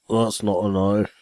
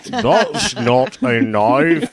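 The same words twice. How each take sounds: First: Bad Australian accent. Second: Slow, hammed-up Australian accent; terrible Australian accent. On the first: Quoting Crocodile Dundee to friends, a half-hearted Australian accent. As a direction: toss off a poor Australian accent. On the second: Redoing Crocodile Dundee for laughing friends, exaggerated Australian accent. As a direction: lay a bad Australian accent on thick. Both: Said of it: "that was my Australian accent".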